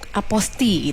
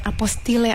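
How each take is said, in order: First: The word ends on the I, no L. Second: The word ends with an audible L sound. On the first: The speaker calls it right. "mengharuskan untuk aposti" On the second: The speaker calls it wrong. "ada yang pengucapannya apostile"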